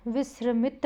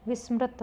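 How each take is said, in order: First: विस्मृत garbled as "visramit"; wrong pronunciation. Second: Said in the usual way. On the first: Shown as a demonstration. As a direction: move the r forward in विस्मृत, "vis-ra-mit". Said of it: "विस्मृत नहीं होता". (विस्मृत को "विस्रमित" बोलते हुए) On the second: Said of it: "विस्मृत होता है".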